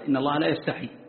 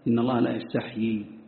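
First: The verb ends with a single y sound. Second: The verb ends with a doubled y sound. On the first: This is a rare, non-standard reading. The speaker calls it wrong. "في قراءة ابن محيصن وهي من الشواذ" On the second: This is the widely transmitted, more eloquent reading. The speaker calls it right. "واستحيا أفصح، ولهذا جاءت متواترة"

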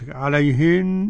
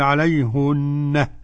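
First: The word ends without an added h sound. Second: The word ends with an added h sound. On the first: This is the usual reading. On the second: This is one reciter's reading when pausing on the word.

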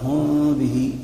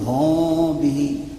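First: The lips open slightly during the m sound. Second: A long vowel is added after the m sound. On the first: "هذه الفرجة المحدثة المبتدعة هذه" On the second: "فأحدث حرفا كاملا حرف مد"

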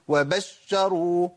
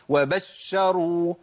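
Both takes have the same delivery.

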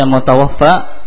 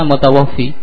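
First: The word ends with an 'a' vowel. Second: The word ends with an 'ee' vowel. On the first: The person was taken by death. "bisa dibaca mutawaffa" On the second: The person received his provision in full. "bisa dibaca mutawaffi"

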